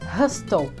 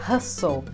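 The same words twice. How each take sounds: First: The T sound is pronounced. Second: The T sound is silent. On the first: The speaker calls it wrong. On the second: The speaker calls it right.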